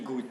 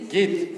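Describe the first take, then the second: First: The vowel is u, as in standard klal Yiddish. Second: The vowel is i, as in his own Yiddish.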